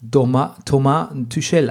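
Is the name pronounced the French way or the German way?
French. The name is pronounced the French way. This is how people in France say it. "man spricht ihn hier Thomas Tuchel aus"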